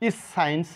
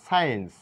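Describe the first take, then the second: First: The c is pronounced as an extra sound. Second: The c is silent, not pronounced at all. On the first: The speaker calls it wrong. "ইস সায়েন্স না" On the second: The speaker calls it right. "এটা বলবো সায়েন্স, সি এর কোনো sound নেই।"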